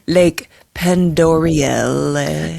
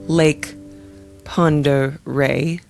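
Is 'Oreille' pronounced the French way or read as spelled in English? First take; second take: as spelled; French way. First: The name is read out as spelled in English. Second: The name is pronounced in the looked-up French way. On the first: The speaker calls it wrong. "otherwise it's going to be like" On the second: The speaker calls it right. "I think I said that right"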